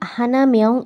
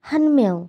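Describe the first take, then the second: First: The number is said in full as hana. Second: The number is shortened to han. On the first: The speaker calls it wrong. "এভাবে বলে না" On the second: The speaker calls it right. "ওরা বলে হান মেয়ং"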